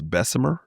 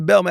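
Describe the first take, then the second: First: The name is said fully with all syllables. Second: The name is said in a clipped local way. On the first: This is the official pronunciation. "It's supposed to be pronounced Bessemer" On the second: This is how locals in Alabama say it. "you in Alabama, man, you gotta say Belma"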